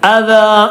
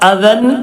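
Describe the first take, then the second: First: The word ends with a long a vowel. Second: The word ends with an n sound. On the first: The speaker calls it right. "അദാ ഒരൽഫ് അദാ" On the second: The speaker calls it wrong. "അദൻ എന്നല്ല"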